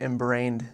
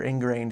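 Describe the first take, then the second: First: INGRAINED mispronounced as "embrained", with m-b for n-g; slip of the tongue. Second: Said in the usual way. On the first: Real, not acted. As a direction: stumble on INGRAINED, saying "em-brained". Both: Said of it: "excuse me".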